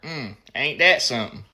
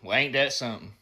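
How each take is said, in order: First: It sounds smug and satisfied, with a smirk. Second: It sounds serious and sympathetic about something sad.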